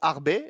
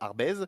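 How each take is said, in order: First: The name ends on a vowel, z silent. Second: The name ends with an audible z sound. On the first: The speaker calls it right. "ça se prononce Arbey" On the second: The speaker calls it wrong. "et non pas euh, Arbez"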